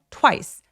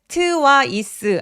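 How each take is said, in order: First: The word is said as one syllable. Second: The word is said with two syllables. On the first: The speaker calls it right. "twice 소리는 이름절 하나예요" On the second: The speaker calls it wrong. "twice 아니고요"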